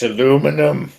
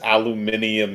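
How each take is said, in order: First: The word is said with four syllables. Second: The word is said with five syllables. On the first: The speaker calls it right. "It's aluminum" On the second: The speaker calls it wrong. "if anybody says aluminium is how you're supposed to pronounce it"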